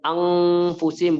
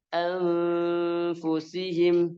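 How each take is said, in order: First: The nasal before the f sounds like 'ng'. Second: The nasal goes straight into the f without 'ng'. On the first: The speaker calls it wrong. "tapi tidak menjadi eng, bukan anfusihim" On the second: The speaker calls it right. "langsung ke makhraj fa, tapi tidak menjadi eng"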